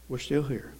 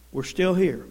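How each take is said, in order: First: We're still here dropped low and soft; hushed repeat of We're still here; quiet echo. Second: Said in the usual way. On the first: Shown as a demonstration. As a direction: say it again almost under the breath.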